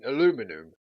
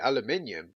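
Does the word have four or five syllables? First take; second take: four; five. First: The word is said with four syllables. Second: The word is said with five syllables. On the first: This is the non-British way of saying it. The speaker calls it right. "Oops, I mean aluminum" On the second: This is the British way of saying it. The speaker calls it wrong. "I was brought up to say aluminium. That's how um, British people say it"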